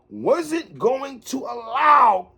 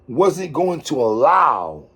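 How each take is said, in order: First: The phrase is said at a slow pace. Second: The phrase is said at a fast pace. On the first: "Let me slow that down" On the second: "walk with me right quick"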